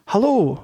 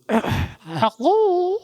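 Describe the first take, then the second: First: It is said in a plain, younger voice. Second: It is said in a very old man's voice.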